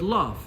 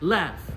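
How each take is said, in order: First: The word is said in a non-American accent. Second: The word is said in an American accent.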